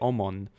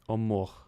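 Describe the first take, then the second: First: The word is said with an English pronunciation. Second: The word is said with a Russian pronunciation. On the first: "in English we say Omon" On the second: "the Russians say um, Omor with an H"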